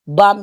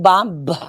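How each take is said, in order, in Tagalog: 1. Tahimik ang huling tunog ng b. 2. Binibigkas ang huling tunog ng b. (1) "pronounced without B" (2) "hindi yun bomb"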